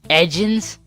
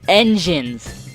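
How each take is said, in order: First: The n before the g is left out. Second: The n before the g is clearly pronounced. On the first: The speaker calls it wrong. "I can't even pronounce the word edgins" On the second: The speaker calls it right. "so you guys can tell I'm not an idiot and can't pronounce the word engines"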